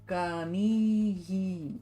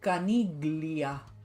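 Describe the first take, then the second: First: It is said with Japanese sounds, without gl. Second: It is said with Spanish sounds, including gl. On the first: "Do we have the gla sound?" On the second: "In Spanish would be Caniglia"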